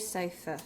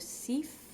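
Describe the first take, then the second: First: The first vowel sounds like 'eye'. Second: The first vowel sounds like 'ee'. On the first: The speaker calls it right. "me saying it the way I did probably sounds a little different" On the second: The speaker calls it wrong. "which is actually incorrect pronunciation"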